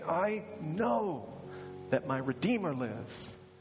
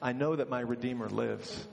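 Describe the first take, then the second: First: It is said forcefully, through clenched teeth. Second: It is said lightly, in a casual tone. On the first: The speaker calls it right. "with his teeth gritted and his jaw locked" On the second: The speaker calls it wrong. "I don't think he said it that way"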